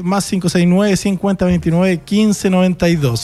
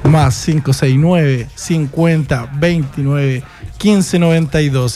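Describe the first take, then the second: First: The number is said at normal speed. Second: The number is said slowly.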